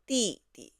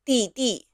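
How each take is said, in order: First: The second syllable is light and toneless. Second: The second syllable carries a full tone. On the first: The speaker calls it right. "The second character is in the neutral tone" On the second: The speaker calls it wrong. "we don't call your uh, little brothers 弟弟"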